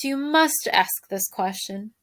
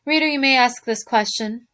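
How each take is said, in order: First: "must" stretched slow and rising; stress on must. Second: Said in the usual way. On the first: Shown as a demonstration. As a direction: lean hard on "must", slowly.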